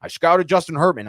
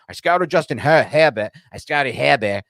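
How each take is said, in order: First: Said in the usual way. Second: Put-on a loose Boston accent, Herbert said as Hebbet with no R; a playful imitation of a Boston football GM; mock Boston accent. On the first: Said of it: "he's like". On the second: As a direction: drop the R's Boston style, Herbert as Hebbet. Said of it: "that Boston accent".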